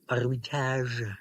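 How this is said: The name is pronounced the French way. "it's more French"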